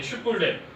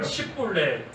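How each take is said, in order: First: The word begins with a 'sh' sound. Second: The word begins with an 's' sound. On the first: The speaker calls it right. "이 슈볼렛, 이 발음을" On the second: The speaker calls it wrong. "슈볼렛을 못하고 십볼렛 예, 그렇게 발음을 하는"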